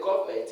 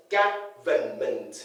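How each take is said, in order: First: Government as "GOV-ment"; mispronunciation. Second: Government slowly as GA-vuh-ment; three syllables. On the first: Teacher shows the word that does not exist, mispronunciation. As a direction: run "government" into two syllables. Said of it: "No word like". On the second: Teacher counts out three syllables, slow syllable-by-syllable word. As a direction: separate all three parts of "government". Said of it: "Three syllables". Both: Shown as a demonstration.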